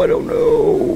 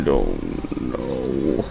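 First: Tiny high-pitched uncertainty, drawn out. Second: Extremely slow, deep-voiced uncertainty; very low drawl. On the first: Pretend. Gamer unsure of the code, very high voice. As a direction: squeak it slowly, high up. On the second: Gamer unsure of the code, very low drawl. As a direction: drop deep and stretch it out.

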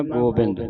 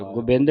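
First: ਗੋਬਿੰਦ with full o, "go-bind"; correct reading. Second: Short u in first syllable, "gubind"; wrong reading. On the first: Teacher models the word for students, "gobind" with o. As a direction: hold the o in first syllable. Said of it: "ਗੋਬਿੰਦ ਨਹੀਂ ਪੜ੍ਹਨਾ". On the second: Teacher shows the misreading to avoid, "gubind". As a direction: say ਗੋਬਿੰਦ as quick "gu-bind". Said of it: "ਨਹੀਂ ਪੜ੍ਹਨਾ". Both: Shown as a demonstration.

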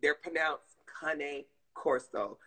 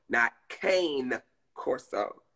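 First: "cane corso" said slowly as kah-neh corso; the breeder way, carefully; correct pronunciation. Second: "cane Corso" said slowly with cane as in candy cane; the southern way, drawn out; southern pronunciation. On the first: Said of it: "the real people who breed 'em". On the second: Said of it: "That's us down south people doing it". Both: Shown as a demonstration.

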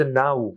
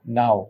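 First: "now" closing on a rounded oo, "na-oo"; correct pronunciation. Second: "Now" as "nao", ending on o; mistaken pronunciation. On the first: Teacher correcting learners, oo ending. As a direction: glide "now" all the way to oo. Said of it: "উ sound দিয়ে শেষ হবে". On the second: Teacher showing what not to say, o ending. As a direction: let "Now" close on an open o. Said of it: "But এটা না". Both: Shown as a demonstration.

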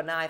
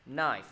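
First: KNIFE as "kuh-nife"; K wrongly sounded. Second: KNIFE as "nife", starting straight on n; silent K. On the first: Teacher asking if it's read so, KNIFE as "kuh-nife". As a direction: add a k syllable before the n in KNIFE. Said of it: "Mình có đọc là knife không?". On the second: Teacher modelling for students, KNIFE with silent k. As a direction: drop the k in KNIFE, sound the f. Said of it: "gọi là K câm". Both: Shown as a demonstration.

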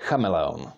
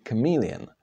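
First: "Chameleon" as KHA-me-le-on, with throaty CH; lower-pitched "Chameleon", stressed on the first syllable; Czech first-syllable stress. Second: "chameleon" stressed on "me", with a K sound; English second-syllable stress. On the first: Teacher reads the word in Czech, "Chameleon" stressed on CHA. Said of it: "put the stress on the first syllable". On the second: Teacher contrasts English with Czech, "chameleon" stressed on second syllable. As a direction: say "chameleon" the English way, ka-MEE-lee-on. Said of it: "you would put stress on the". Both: Shown as a demonstration.

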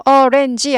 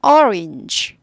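First: Orange dragged out in three beats; the mistaken way to say orange; three-syllable orange; wrong three-beat orange. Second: Orange said in two quick beats; the right way to say orange; two-syllable orange; correct two-beat orange. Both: Shown as a demonstration. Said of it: "orange 아니고".

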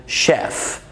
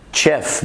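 First: Slow, careful "شيف" opening on sh; correct pronunciation. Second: "شيف" with a hard ch as in chat; mispronounced "شيف", opening on ch; wrong pronunciation. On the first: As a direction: say "شيف" starting with a hushing "sh". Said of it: "بنقول". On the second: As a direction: say "شيف" starting with a "tch" sound. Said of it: "ما بنقولش". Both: Shown as a demonstration.

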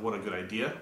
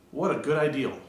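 First: Said in the usual way. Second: What a good ideal, with an L at the end; saying ideal for idea. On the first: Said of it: "instead of". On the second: Shown as a demonstration. Mocking a slip, What a good ideal. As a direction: add an L to idea. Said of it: "Are you dumb if you say".

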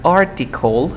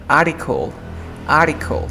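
First: Article with the T clearly sounded after the R; "article" spoken with its written T intact; full T pronunciation. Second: Article with no T after the R, like "ar-icle"; "article" with the T left out; dropped T. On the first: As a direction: say "article" keeping a crisp T. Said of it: "no pronuncias la T". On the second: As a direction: say "article" gliding from R straight into the vowel. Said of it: "Vas a pronunciar como". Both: Shown as a demonstration.

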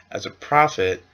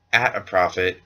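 First: Said in the usual way. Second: "at" stressed as the fixed word; correcting stress on at. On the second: Shown as a demonstration. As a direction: lean on "at" to fix the slip.

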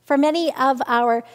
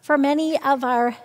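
No difference in how they are said.

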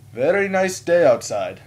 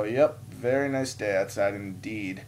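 First: High, loud, slow imitation of small talk; chatty stranger. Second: Slow, understated echo of his small talk; reluctant polite reply. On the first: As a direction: imitate an over-cheery passerby. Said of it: "today he goes". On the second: Retold or imitated. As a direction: answer slowly, just humouring him. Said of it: "And I go".

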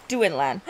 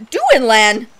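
First: Said in the usual way. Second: Louder gasped 'Duinlan!' in recognition; gasp, then call 'Duinlan!' happily; delighted gasp. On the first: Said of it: "gasps Duinlan!". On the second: Real, not acted. Player recognizing the ghost knight, gasping with joy.

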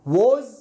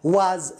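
First: Was said as woz, ending in a z. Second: Was said slowly as waz, ending in z. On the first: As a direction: let was end on a buzzing z. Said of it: "إذا ما سمعتها was صحيحة". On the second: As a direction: draw out was with a buzzing z. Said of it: "was صحيحة". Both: Shown as a demonstration.

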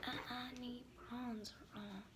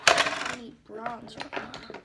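First: Slow, much softer take; hushed and slow. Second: Slow, loud, stretched line; louder and slow; drawn-out and louder. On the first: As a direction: ease it out softly. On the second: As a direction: drag it out, playfully insistent. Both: Acted. Repeats the line in a new way.

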